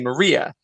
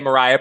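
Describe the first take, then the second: First: It is said the British way. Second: It is said the American way.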